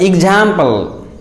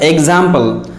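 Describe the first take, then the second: First: Example with a "j" sound, ik-JAM-pul; correct pronunciation. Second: Example starting with a clear "ek-z"; wrong pronunciation. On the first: Teacher correcting the word, example said ik-JAM-pul. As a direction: say example starting "ik-j". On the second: Teacher showing what to avoid, example as ek-ZAM-pul. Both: Shown as a demonstration. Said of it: "it is not example".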